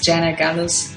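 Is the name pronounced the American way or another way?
American. The name is said with an American pronunciation. This is how others in America say the name. "That's how Americans would pronounce it"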